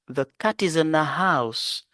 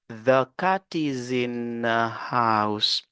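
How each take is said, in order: First: The sentence is said at a quicker pace. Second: The sentence is said at a slower pace.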